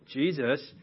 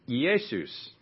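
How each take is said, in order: First: The name is said with English sounds. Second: The name is said with Greek sounds. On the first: "Jesus is the English pronunciation" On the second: "the Greek name Jesus"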